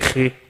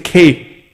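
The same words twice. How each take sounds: First: The K is harsh and raspy, like kh. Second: The K is a clean, plain stop.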